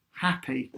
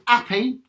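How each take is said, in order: First: Happy with a clear H, softer. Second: Happy said as appy; 'appy, no H. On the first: Teacher showing the wrong way, happy with H. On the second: Teacher showing the Cockney 'appy. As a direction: drop the H on happy. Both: Shown as a demonstration. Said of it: "not happy".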